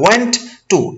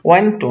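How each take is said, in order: First: The t at the end of want is pronounced. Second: The t at the end of want is dropped. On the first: The speaker calls it wrong. "আমরা বলি ওয়ান্ট to, এরকম না" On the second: The speaker calls it right. "ওয়ান্টের প্রথম টিটা চলে যাচ্ছে"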